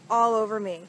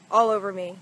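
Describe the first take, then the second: No difference in how they are said.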